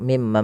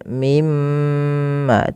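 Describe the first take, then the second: First: The doubled m is passed over quickly without holding. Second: The doubled m is held with a long nasal hum. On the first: The speaker calls it wrong. "tidak langsung" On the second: The speaker calls it right. "itu perlu ditahan suara gunnahnya"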